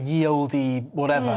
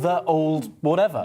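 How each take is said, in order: First: The first word begins with a y sound. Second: The first word begins with a th sound. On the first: This is the modern reading that sounds more official. "that we all pronounce as ye" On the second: This is how it was originally said long ago. "So it was pronounced"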